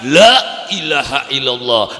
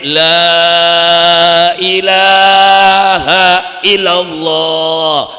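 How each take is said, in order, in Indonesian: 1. Diucapkan dengan cara yang frustrasi dan jengkel. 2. Diucapkan dengan cara yang dibuat-buat seperti di panggung. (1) "ning wong wadon lakine beli teka-teka anake ngamuk" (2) "ning dhuwur panggung ngucape"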